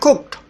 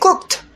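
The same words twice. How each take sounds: First: The word ends with a d sound. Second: The word ends with a t sound. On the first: The speaker calls it wrong. "bukan d" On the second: The speaker calls it right. "tapi t"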